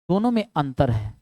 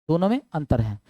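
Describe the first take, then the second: No difference in how they are said.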